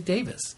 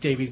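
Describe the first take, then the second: First: The name ends with a short 'i' vowel. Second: The name ends with a long 'ee' vowel. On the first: The speaker calls it right. "Sometimes we'll say Davis" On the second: The speaker calls it wrong. "Sometimes we'll say Davies"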